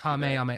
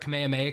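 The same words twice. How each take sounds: First: The first syllable is a full 'Ka'. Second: The first syllable is clipped to 'K'. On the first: This is the original way. "It's supposed to be that" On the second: This comes from the English translation. "They say instead of Ka, they say K"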